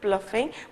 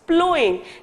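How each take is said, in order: First: The middle consonant is an f sound. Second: The middle is an ow glide, no f. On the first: The speaker calls it wrong. "I may have pronounced as a प्लफिंग but it is not" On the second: The speaker calls it right. "It is प्लोइंग"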